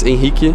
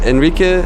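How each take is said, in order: First: The name is said in Brazilian Portuguese. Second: The name is said in a non-Brazilian way.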